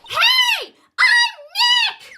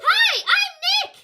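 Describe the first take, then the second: First: It is said loudly, almost shouted. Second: It is said at normal, quieter volume.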